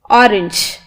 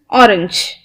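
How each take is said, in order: First: The last syllable sounds like 'inch'. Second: The same.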